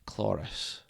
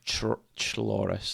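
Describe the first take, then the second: First: The word begins with a hard k sound. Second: The word begins with a soft ch sound. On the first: "it'd be a hard K" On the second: "That doesn't sound right"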